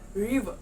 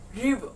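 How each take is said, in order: No difference in how they are said.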